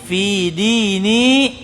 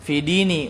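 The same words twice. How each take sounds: First: The final vowel of dini is held long. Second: The final vowel of dini is cut short. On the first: The word means my religion. The speaker calls it right. "itu panjang mat tabii" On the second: The meaning my religion is lost. The speaker calls it wrong. "dan itu salah"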